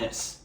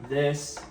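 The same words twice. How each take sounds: First: It is said in a low, dismissive tone. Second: It is said in a calm, neutral pitch. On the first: The speaker acts superior to the listener. The speaker calls it wrong. "a breaking rapport voice" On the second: The speaker sounds relaxed and confident. The speaker calls it right. "a neutral voice"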